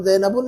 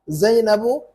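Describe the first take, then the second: First: ज़ैनबुन with a final n after "bu"; wrong tanween ending. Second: जैनबू with an open, rising final "bu"; no tanween. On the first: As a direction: show ज़ैनबुन closing in nasal "-bun". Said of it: "नहीं पढ़ सकते उसको". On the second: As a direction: end जैनबू on the u vowel without n. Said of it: "हम ज़ैनबुन नहीं पढ़ सकते". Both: Shown as a demonstration.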